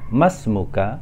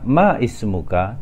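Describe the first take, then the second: First: The words run together without that vowel. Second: The vowel of ismuka is pronounced separately. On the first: The speaker calls it right. "tetapi kita membacanya masmuka" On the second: The speaker calls it wrong. "kita tidak membacanya ma ismuka"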